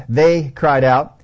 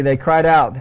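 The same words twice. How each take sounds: First: THEY stretched out slowly and punched; stress on THEY. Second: Said in the usual way. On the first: Acted. Preacher shows both men spoke, THEY heavily stressed. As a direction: lean long and hard on "they". Repeats verse to stress plural.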